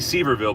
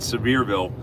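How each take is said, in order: First: The name is said the way it looks written. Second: The name is said the way locals say it. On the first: This is how an outsider would read it. The speaker calls it wrong. "it looks like it would be Seaverville, but they don't pronounce it like that" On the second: This is how the people there say it. The speaker calls it right. "They call it Sevierville. They pronounce it that way"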